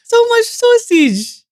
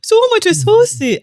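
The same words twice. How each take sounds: First: Very high, slow, hammed-up Dutch accent; mock Dutch accent, high and very slow. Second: High, slow mock Dutch accent; mock Dutch accent, high and drawn out. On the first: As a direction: stretch it out like a cartoon Dutchman. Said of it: "You nailed it". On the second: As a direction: do a hammed-up Dutch settler. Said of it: "when the Dutch arrived".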